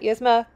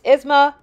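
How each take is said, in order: First: The name begins with a 'yes' sound. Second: The name begins with an 'ee' sound. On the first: The speaker calls it wrong. "not Yesma" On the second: The speaker calls it right. "It's Isma"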